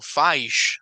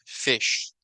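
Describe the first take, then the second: First: The i is said as a long vowel. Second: The i is said as a short vowel. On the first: The speaker calls it wrong. "aquí no estamos pronunciando fish" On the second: The speaker calls it right. "It is short"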